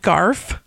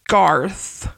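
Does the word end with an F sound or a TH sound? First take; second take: F sound; TH sound. First: The word ends with an F sound. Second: The word ends with a TH sound. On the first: "I said the F" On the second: "If you say the TH sound again"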